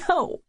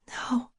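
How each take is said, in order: First: The word is choked out with emotion. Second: The word is whispered softly. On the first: "the second time I say it, I'm choking" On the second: "I whisper it once"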